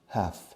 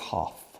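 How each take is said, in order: First: It is said with an American accent. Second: It is said with a British accent. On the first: "la L de half we don't pronounce" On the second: "The Brits say half"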